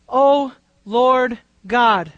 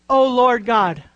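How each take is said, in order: First: "O Lord God" drawn out word by word; slow reverent O Lord God; slow, weighty O Lord God. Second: Said in the usual way. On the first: Shown as a demonstration. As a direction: stretch "O Lord God" slowly and solemnly. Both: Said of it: "This is a very significant title".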